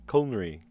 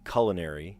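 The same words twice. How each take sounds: First: It is said with a British accent. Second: It is said with an American accent.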